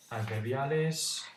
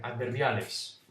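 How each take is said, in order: First: Drawn out, slow and deliberate; slow title read; slow heading. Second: Said in the usual way. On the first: Shown as a demonstration. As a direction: announce the word slowly like a heading.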